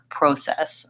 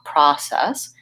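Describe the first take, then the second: First: The first vowel is a rounded 'oh' sound. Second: The first vowel is an open 'ah' sound. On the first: This is the British pronunciation. "it sounds more like process um, for the British English" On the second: This is the North American pronunciation. "It says ah"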